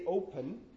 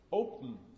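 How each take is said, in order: First: The last syllable has a schwa vowel. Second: The last syllable is a syllabic nasal. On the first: The speaker calls it wrong. "I didn't actually say open" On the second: The speaker calls it right. "I don't really produce a schwa. What I really produce is just an m after the p"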